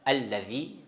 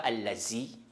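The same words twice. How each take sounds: First: The middle consonant is a soft 'th' sound. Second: The middle consonant is a 'z' sound. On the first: The speaker calls it right. "On répète le lettre Val dedans" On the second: The speaker calls it wrong. "c'est pas"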